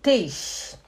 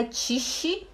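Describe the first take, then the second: First: Tisch with a clean t and a short i, tish; German pronunciation. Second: Tisch said as tchishi, with a tch sound and an extra i; wrong pronunciation. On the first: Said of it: "é Tisch". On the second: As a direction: say Tisch as tchishi, Portuguese style. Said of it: "E não é Tisch". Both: Shown as a demonstration.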